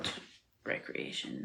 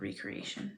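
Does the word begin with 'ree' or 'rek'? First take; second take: rek; ree. First: It begins with a short 'rek' sound. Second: It begins with a long 'ree' sound. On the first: The speaker calls it right. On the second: The speaker calls it wrong. "not recreation"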